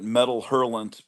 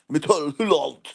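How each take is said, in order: First: The name is said with an American pronunciation. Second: The name is said with a French pronunciation. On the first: The speaker calls it wrong. "all real Americans called called it Metal Hurlant" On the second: The speaker calls it right. "we should pronounce it properly"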